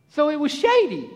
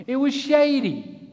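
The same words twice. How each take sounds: First: Lazy Israelite voice. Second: Said in the usual way. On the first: Pretend. Israelites lounging under the cloud, higher and savoring. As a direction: savor the shade in a character voice. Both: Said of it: "There I am again".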